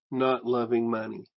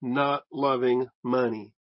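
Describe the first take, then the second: First: Said in the usual way. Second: Not loving money slow, with not leaned on; preacher hammering home not loving money; stress on NOT. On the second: Shown as a demonstration. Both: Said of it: "followed by a philagaros".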